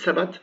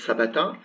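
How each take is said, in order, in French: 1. Le mot finit par une consonne, la voyelle finale tombe. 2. Le mot finit par un son voyelle final. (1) "S'il n'y a rien d'écrit et qu'on est en fin de phrase, on va prononcer sabat" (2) "Mais normalement, ça va être sabata"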